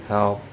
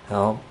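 No difference in how they are said.

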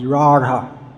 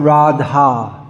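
First: The middle consonant is an r-like flap. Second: The middle consonant sounds like a plain d. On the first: The speaker calls it right. "spelt with a D, with a dot underneath it, which is actually not pronounced like a D at all" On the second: The speaker calls it wrong. "It's not Radha"

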